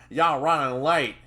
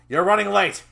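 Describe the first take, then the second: First: Loud Southern scolding; Southern accent growl. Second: Loud, high angry outburst; scolding shout. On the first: Trainer scolding his late trainee, Southern growl. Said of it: "his southern accent growled". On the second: Trainer scolding his late trainee, angry shout. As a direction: shout it at a latecomer. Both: Acted.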